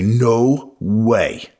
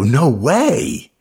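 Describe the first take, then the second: First: It sounds like a belligerent denial. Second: It sounds incredulous and disbelieving.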